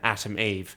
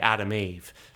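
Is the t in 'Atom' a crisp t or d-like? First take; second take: crisp t; d-like. First: The middle consonant is a crisp t sound. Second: The middle consonant is a soft d sound. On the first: It is the speaker's usual accent. The speaker calls it wrong. "doesn't make sense to say in the accent I'd usually say it in" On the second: It echoes the names Adam and Eve. The speaker calls it right. "you've got to say Adam Eve because then you get the the cool parallel of Adam and Eve"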